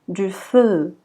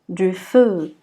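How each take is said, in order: No difference in how they are said.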